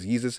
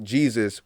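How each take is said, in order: First: The name begins with a Y sound. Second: The name begins with a J sound. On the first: This is how it was said long ago. "It was with a Y" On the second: This is the modern way of saying it. "we we say it with a J now"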